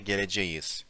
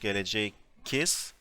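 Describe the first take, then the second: First: A softened, smooth sound comes before the ending. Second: A hard k sound comes before the ending. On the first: The speaker calls it right. "we say" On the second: The speaker calls it wrong. "Instead of saying"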